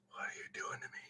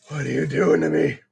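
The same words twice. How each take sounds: First: Whisper. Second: Lower. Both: Real, not acted. Pleading with the furniture piece.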